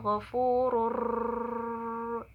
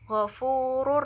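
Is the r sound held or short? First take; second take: held; short. First: The merged sound is held and drawn out. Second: The merged sound passes without being held. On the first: The speaker calls it wrong. "jangan ghafurur, nggak boleh gitu" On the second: The speaker calls it right. "hanya dimasukkan saja, nggak boleh ditahan"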